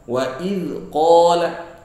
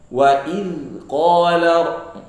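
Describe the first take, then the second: The two takes are said the same way.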